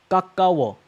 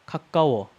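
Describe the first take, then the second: First: 가까워 with both consonants hard and tense, louder; tense first consonant. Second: 가까워 starting soft, then tense 까; soft first consonant. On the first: Teacher contrasting top with bottom, 가까워 tense from the first sound. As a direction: hit the start of 가까워 as hard as the middle. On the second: Teacher giving the correct bottom option, 가까워 soft start, tense middle. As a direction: keep the start of 가까워 light, punch the middle. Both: Shown as a demonstration.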